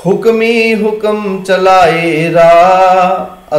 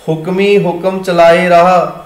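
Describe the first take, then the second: First: Drawn-out, chanted scripture line; slow chant ending on a short ਰਾਹ; slow chanted recitation. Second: Spoken line with ਰਾਹ said as plain raah, no final o; ਰਾਹ pronounced raah, not raaho. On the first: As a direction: chant it slowly like kirtan. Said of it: "ਅਸੀਂ ਹੁਣ ਇੱਥੇ ਪਾਠ ਰਾਹੋਂ ਨਹੀਂ ਕਰਾਂਗੇ". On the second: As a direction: recite it evenly, closing on ਰਾਹ not Rahon. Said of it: "ਇੱਥੇ ਪਾਠ ਹੋਏਗਾ ਰਾਹ". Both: Shown as a demonstration.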